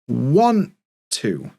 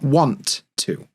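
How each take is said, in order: First: The t in want is a glottal stop. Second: The t in want is fully pronounced. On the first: The speaker calls it right. "that t is going to become a glottal stop" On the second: The speaker calls it wrong. "not want to"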